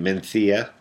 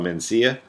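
First: The middle consonant is a lisped th sound. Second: The middle consonant is a plain s sound.

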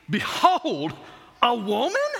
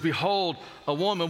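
First: It is said with shocked, incredulous astonishment. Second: It is said plainly, as a simple statement.

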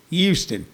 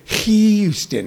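First: The word starts without any H sound. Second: The word starts with a clear H sound. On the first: The speaker calls it right. "It's Houston. It's more like they don't even need the H" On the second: The speaker calls it wrong. "They don't say Houston"

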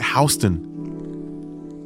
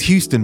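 First: It is said the way New Yorkers say it. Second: It is said the way the spelling reads. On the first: This is how locals say the street name. "when I was in New York, they pronounce it Houston" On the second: This is how the written name suggests saying it. "It says Houston"

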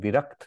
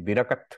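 First: The final consonants are said together as a cluster. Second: A vowel is inserted between the final consonants. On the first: "instead of saying Virakt" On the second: "sometimes Punjabis, so they don't say Yuktakshar, ... they will say Virakat"

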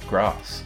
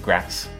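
First: The word is not said the northern English way. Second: The word is said the northern English way. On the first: "and not grass" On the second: "We say grass"

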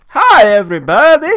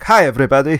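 First: It is said in a cheerful, upbeat tone. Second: It is said in a serious, grave tone.

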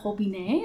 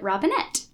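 First: The final T is silent, French style. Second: The final T is clearly pronounced. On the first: This is the proper French form of the name. "If we were properly French, it would be Robinet" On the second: This is the local anglicized form of the name. "it has a hard T at the end"

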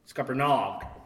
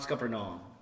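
First: The word ends with a hard g sound. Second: The word ends without a hard g sound. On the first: The speaker calls it right. "Hard G at the end" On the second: The speaker calls it wrong. "Not Scuppernong"

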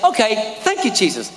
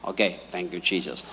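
First: It sounds sincerely grateful and glad. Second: It sounds grudging and reluctant.

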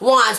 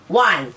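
First: The final consonant sound is pronounced. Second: The final consonant sound is dropped. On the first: "instead of saying the word want as wants" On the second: "we gotta say the word as one"

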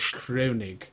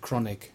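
First: The o is said as an umlaut vowel. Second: The o is said as a plain vowel. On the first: "I pronounced it with the umlaut as Kronig" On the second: "if it hadn't got it, I'd have said Kronig"

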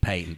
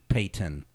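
First: The middle T is swallowed, not released. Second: The middle T is clearly pronounced. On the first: The speaker calls it right. "the hillbilly elision on the T" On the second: The speaker calls it wrong. "They say"

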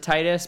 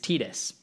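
First: The name is said the common English way. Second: The name is said the Japanese way. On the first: The speaker calls it wrong. "A lot of people pronounce it Titus" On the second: The speaker calls it right. "the correct Japanese pronunciation is Titus"

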